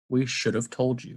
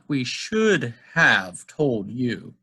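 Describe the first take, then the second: First: 'Have' is reduced to a weak, short sound. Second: 'Have' is pronounced fully with a clear vowel. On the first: The speaker calls it right. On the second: The speaker calls it wrong.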